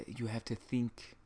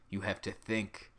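First: Softly attempted, faltering Hungarian accent. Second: Said in the usual way. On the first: Comedian imitating mom's advice on cooling down, poor Hungarian accent. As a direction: try Mom's thick Hungarian accent, badly faked. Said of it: "in her thick Hungarian accent". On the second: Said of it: "My mom would tell me".

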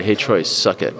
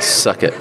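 First: Said in the usual way. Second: A mock whisper, breath only; whispered tease. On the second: Shown as a demonstration. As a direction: hiss it playfully under the breath. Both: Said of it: "teasing Troy".

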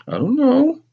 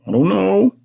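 First: Put-on very high child's whine; whining, almost crying. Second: High-voiced child's meek answer; meek reply. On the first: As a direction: whine it as if near tears. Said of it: "I whined again, almost crying". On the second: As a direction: answer mother in a high little voice. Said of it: "I answered quietly". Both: A narrator's reading.

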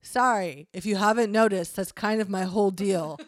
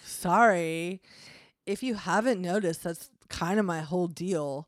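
First: Lightly voiced devil, a bit louder. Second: Lightly voiced devil with Valley Girl accent. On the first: Devil excusing himself to his roommate, lightly voiced devil. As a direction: own up to it as the devil. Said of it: "I will make a devil voice". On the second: Devil excusing himself to his roommate, slight Valley Girl accent. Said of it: "now he sounds like Valley Devil".

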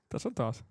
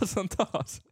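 First: Said in the usual way. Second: Laughing. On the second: Real, not acted. Repeated with laugh.

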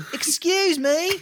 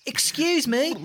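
First: Calling out higher. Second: Said in the usual way. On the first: Acted. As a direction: Excuse me called again much higher and louder.

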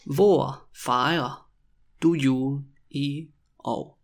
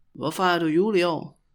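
First: Stretched words with gaps between them; very slow, word by word. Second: Said in the usual way. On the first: Shown as a demonstration. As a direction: dictate the question to beginners. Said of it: "when I say it really slowly". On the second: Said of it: "when you also say it quickly".

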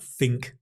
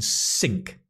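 First: "think" set apart with a TH sound at the start; clear TH in think. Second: "sink" set apart with an S sound at the start; clear S in sink. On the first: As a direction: isolate "think", tongue between the teeth to begin. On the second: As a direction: isolate "sink", opening on a clean s. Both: Shown as a demonstration. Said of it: "the joke he's making about".

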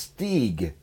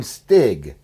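First: Stieg said with a long ee, "steeg"; Norwegian Stieg. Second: Stig said with a short i like "stick"; Stig pronounced with short i. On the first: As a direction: stretch the vowel in Stieg to ee. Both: Shown as a demonstration. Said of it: "It's Stieg, actually, in Norwegian".

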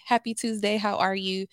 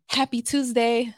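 First: Upbeat work greeting; forced cheerful hello; chipper greeting. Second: Bright, upbeat, higher and louder hello; forced cheerful greeting; chipper greeting. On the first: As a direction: sound cheerful for the client. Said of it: "that's my energy". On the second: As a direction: put on a cheerful work face. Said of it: "this is me showing up as myself". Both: Retold or imitated.

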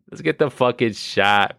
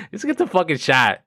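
First: Said in the usual way. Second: Much higher, punchy call; lightly excited urging. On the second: Shown as a demonstration. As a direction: pitch it up like a rallying cry.

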